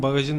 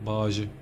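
First: Said in the usual way. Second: "Bagajı" with the g swallowed, baajı; swallowed-letter dialect. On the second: Shown as a demonstration. Driver mimicking a regional dialect, g swallowed in "Bagajı". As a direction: drop the g in "Bagajı", running the vowels together. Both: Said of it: "Bazı harfleri yutarlar ya".

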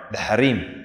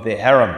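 First: "harem" said as ha-REEM, stress on second syllable; Arabic pronunciation. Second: Said in the usual way. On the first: Shown as a demonstration. English word, then Arabic pronunciation.

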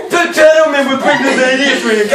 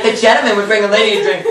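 First: High, put-on character voice; hammed-up recital. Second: Said in the usual way. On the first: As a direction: overact it in a raised, put-on voice. Exaggerated repeat of the line.

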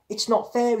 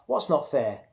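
First: Put-on high, loud childish yell. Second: Said in the usual way. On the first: A narrator's reading. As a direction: yell the grievance through the door. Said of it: "he yelled". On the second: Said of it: "she asked".

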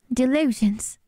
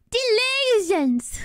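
First: Said in the usual way. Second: Put-on high, stretched British-accented cry; Tom Holland. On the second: Copying the movie take for laughs, high British accent. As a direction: draw it out high, mimicking British outrage. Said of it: "To me, it sounds really British".

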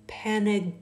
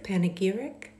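First: "Panegyric" tried, broken off after "pan"; unsure pronunciation. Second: "Panegyric" said whole as PAN-uh-geer-ik with a rising query; questioning full try. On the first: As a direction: stumble on "Panegyric", cut it short. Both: Shown as a demonstration. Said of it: "what is this word?".

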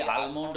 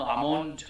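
First: "আলমন্ড" said al-mond, L pronounced; sounded L in almond. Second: "আমন্ড" said a-mond, falling; silent L in almond. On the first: Teacher shows the almond to avoid, L sounded. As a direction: put an L before the M in "আলমন্ড". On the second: Teacher corrects almond, L silent. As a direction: drop the L of "আমন্ড". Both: Shown as a demonstration. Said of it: "আলমন্ড নয় কখনো".

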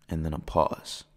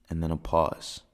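The two takes are said the same way.

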